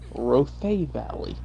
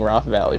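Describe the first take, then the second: First: The first word has two syllables. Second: The first word has one syllable. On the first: The speaker calls it right. "told me Rothay Valley" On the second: The speaker calls it wrong. "I was pronouncing it wrong for all this time"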